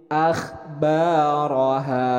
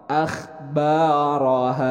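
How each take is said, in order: No difference in how they are said.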